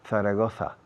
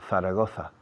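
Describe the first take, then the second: The two takes are said the same way.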